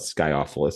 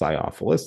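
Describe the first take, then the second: First: The c is pronounced hard, like a k. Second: The c is pronounced soft, like an s. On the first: The speaker calls it wrong. "So it's not Sciophilus" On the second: The speaker calls it right. "the C is apparently soft"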